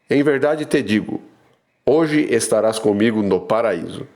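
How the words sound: The pause comes before the word hoje.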